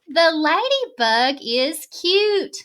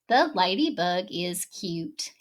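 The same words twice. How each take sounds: First: It is said with excitement. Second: It is said flatly, without excitement.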